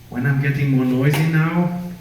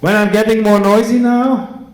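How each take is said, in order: First: The sentence is said at a normal, quieter volume. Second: The sentence is said at a louder volume.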